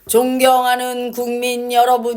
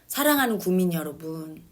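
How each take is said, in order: First: It is read in a stiff, dull way. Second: It is said warmly, like to a friend.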